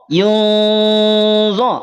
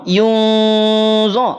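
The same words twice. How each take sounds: Both takes have the same delivery.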